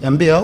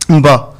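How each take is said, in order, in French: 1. Le nom est prononcé à l'anglaise. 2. Le nom est prononcé à la manière africaine locale. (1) "Faut pas angliciser" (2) "Tout simplement"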